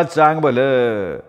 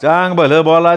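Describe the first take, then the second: First: Slow drawn chant. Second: Shout. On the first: Nama chanting to the crowd, slow and drawn out. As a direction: stretch each word out like a chant. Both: A narrator's reading. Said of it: "नामा ओरडला".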